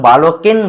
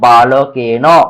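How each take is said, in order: First: The word ends on a bare n consonant. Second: The word ends with a vowel after the n. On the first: The speaker calls it wrong. "অনেকে উচ্চারণ বালকেন বলে, ওটা ভুল উচ্চারণ। বালকেন বললে নয় হসন্ত পড়ে যাবে" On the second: The speaker calls it right. "আমরা কি উচ্চারণ করব?"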